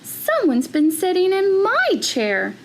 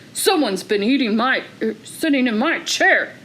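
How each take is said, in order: First: It is said in a medium-sized voice. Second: It is said in a big, deep voice.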